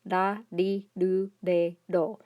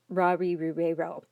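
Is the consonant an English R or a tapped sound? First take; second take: tapped; English R. First: Each syllable starts with a quick tongue tap. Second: Each syllable starts with an English R sound. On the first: The speaker calls it right. "it's a Spanish tap. It's like a, a soft D sound" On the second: The speaker calls it wrong. "this is not pronounced ra-ri, ru-re, ro"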